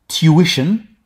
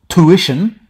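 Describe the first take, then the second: First: It is said with an English accent. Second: It is said with an American accent. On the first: "in England English" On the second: "in American English"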